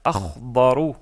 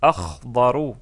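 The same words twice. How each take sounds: No difference in how they are said.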